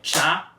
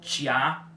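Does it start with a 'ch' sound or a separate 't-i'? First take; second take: ch sound; t-i. First: A hissing ch sound leads straight into a. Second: A plain t is followed by an i sound. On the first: The speaker calls it right. "É tchá" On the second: The speaker calls it wrong. "Vocês não vão ler isso como tia"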